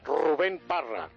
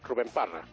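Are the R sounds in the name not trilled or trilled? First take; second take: trilled; not trilled. First: The R sounds are strongly trilled. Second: The R sounds are soft and not trilled. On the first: The speaker calls it right. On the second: The speaker calls it wrong.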